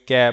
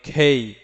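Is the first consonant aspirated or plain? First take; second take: plain; aspirated. First: The first consonant is plain, without a puff of air. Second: The first consonant has a puff of air. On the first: The speaker calls it wrong. "ক্যা বলে থাকি" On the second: The speaker calls it right. "আসলে উচ্চারণ হবে খেই"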